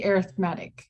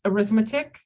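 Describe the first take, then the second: First: "arithmetic" said as the adjective, stress on the third syllable, ar-ith-MET-ic. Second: "arithmetic" said as the noun, stress on the second syllable, a-RITH-me-tic. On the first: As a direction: say "arithmetic" as in arithmetic sequence, MET strong. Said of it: "when you say it's a sequence, they say". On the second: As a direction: say "arithmetic" the way the school subject sounds, with RITH strong. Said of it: "if you read this word". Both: Shown as a demonstration.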